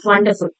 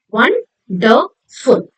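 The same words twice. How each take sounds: First: Said in the usual way. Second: Slow 'wonderful', broken into won-der-ful; syllable by syllable. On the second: Shown as a demonstration. Teacher showing children three syllables, syllable by syllable. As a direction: say 'wonderful' in three separate beats. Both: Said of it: "Three syllables".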